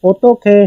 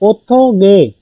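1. अंतिम अक्षर की शुरुआत एस्पिरेटेड 'kh' से होती है। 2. अंतिम अक्षर की शुरुआत सादे 'g' से होती है। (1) "असल वर्ड जो प्रोनाउंस करते हैं वो ओतो खे" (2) "वो लिखने में ओतो गे है"

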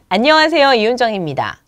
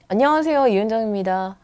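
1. 입을 크게 벌리고 또박또박 발음합니다. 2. 입을 거의 벌리지 않고 웅얼거리듯 말합니다. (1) "입을 크게 벌리면 목소리도 좋아지고 발음도 정확해집니다" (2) "하는 것보다는"

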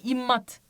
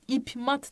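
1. m'den önce m sesi gelir. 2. m'den önce p sesi gelir. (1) "İmmat gibi okunuyor arkadaşlar" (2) "İp mat değil de"

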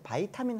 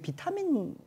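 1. 첫 음절은 'bai'로 발음해요. 영어식이에요. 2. 첫 음절은 'bi'로 발음해요. 한국식이에요.

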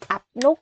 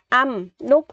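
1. Âm tiết đầu kết thúc bằng âm p. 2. Âm tiết đầu kết thúc bằng âm m. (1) "chứ không đọc là ập nút" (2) "mình đọc là âm nút"

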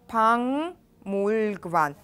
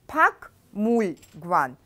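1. Согласный перед 'mul' — звук ng. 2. Согласный перед 'mul' — звук k. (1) "А читается пангмульгван" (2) "пишется пакмульгван"

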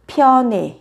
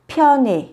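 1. Nguyên âm cuối phát âm giống e. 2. Nguyên âm cuối phát âm giống e.

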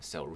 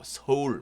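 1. 미국식 억양으로 발음했습니다. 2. 한국식 억양으로 발음했습니다. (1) "미국 사람도 그렇게 읽어요. 서울 못하고 Seoul 이상하게 하던" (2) "우리처럼 또박또박"

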